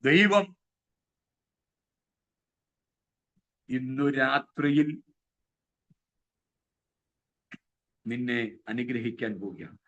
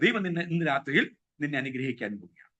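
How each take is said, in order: First: It is dragged out with long pauses between words. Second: It is said continuously without long pauses. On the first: The speaker calls it wrong. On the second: The speaker calls it right.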